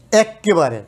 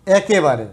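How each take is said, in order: First: এক্কেবারে with a held, doubled kk; emphatic doubled k. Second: Said in the usual way. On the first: Shown as a demonstration. Teacher shows the emphatic form of the word. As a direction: lean on the k of এক্কেবারে. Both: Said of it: "জোর দিয়ে বলতে গেলে আমরা বলি কি".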